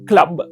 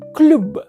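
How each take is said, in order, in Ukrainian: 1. Голосний є відкритим, у англійському стилі. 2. Голосний є округлим, у французькому стилі. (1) "або навіть просто кажуть англомовне «клаб»" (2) "Мало б читатись це слово за правилом"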